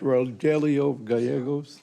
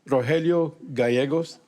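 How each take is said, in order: First: The name is said with English pronunciation. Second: The name is said with Spanish pronunciation. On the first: "For you people that don't speak Spanish" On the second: "I'll pronounce it correctly for you"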